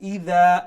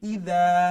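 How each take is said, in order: First: The middle consonant is a soft th sound. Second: The same.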